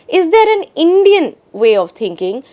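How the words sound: The stress falls on the word Indian. "is now focused on the word Indian"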